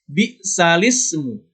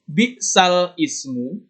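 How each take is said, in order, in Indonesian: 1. Kata-katanya menyambung tanpa jeda glotal. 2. Jeda glotal memisahkan kata-kata sebelum ismu.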